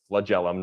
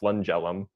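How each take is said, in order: First: The first syllable is said as flag. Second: The first syllable is said as flung. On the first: The speaker calls it right. "It's it's flagellum" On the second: The speaker calls it wrong. "not flungellum"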